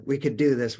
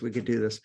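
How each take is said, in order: First: Eager owner's boast. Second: Said in the usual way. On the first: Retold or imitated. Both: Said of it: "we're drivers and we wanna".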